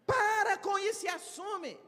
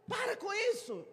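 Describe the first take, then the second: First: Much higher and louder, PARA shouted; shouted scolding. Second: Higher, brisk stop with PARA hit hard; scolding. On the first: Speaker shouting at the shy member to step up, loud. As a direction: shout them into taking it on. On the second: Speaker scolding the shy member, brisk. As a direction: snap them out of excuses. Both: Shown as a demonstration.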